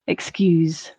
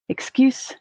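First: The word ends in a buzzing z sound. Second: The word ends in a hissing s sound. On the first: "the voiced" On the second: "the voiceless"

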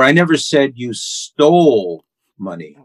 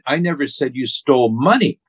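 First: The stress is on the word stole. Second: The stress is on the word money.

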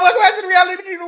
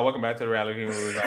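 First: It is said with lots of energy. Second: It is said with little energy.

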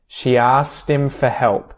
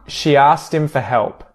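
The two takes are said the same way.

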